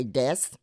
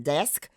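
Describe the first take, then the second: First: Desk with the final k dropped, like dess. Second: Desk with the sk cluster kept; standard desk. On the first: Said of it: "we will leave off a consonant". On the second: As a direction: say desk with both s and k. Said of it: "instead of saying desk". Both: Shown as a demonstration.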